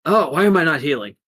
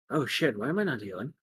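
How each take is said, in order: First: Loud, hurried, raised dismay; acted panicky question; alarmed hero. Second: Fast, softer worried question; hushed acted dismay; worried to self. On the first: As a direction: cry out in quick alarm. Hero discovers he isn't healing. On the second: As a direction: fret quickly under the breath. Hero repeats it to himself.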